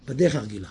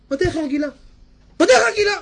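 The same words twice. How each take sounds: First: Said in the usual way. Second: High loud repeat; high indignant repeat; mock outraged cry. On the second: Shown as a demonstration. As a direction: shout it high, mocking. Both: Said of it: "repeated escalating".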